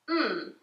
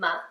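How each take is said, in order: First: The consonant is said alone with no vowel. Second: The consonant is followed by an extra vowel sound. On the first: The speaker calls it right. "This letter sounds M" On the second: The speaker calls it wrong. "this letter doesn't sound M"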